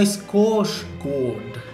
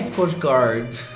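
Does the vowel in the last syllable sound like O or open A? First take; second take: O; open A. First: The last vowel sounds like a closed O. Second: The last vowel sounds like an open A. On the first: The speaker calls it right. "o A com a bolinha em cima tem som de O" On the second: The speaker calls it wrong. "Não é Skarsgård"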